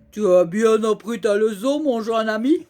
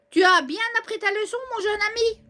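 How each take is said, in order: First: Said in the usual way. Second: Character voice. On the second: Acted. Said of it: "repeated differently".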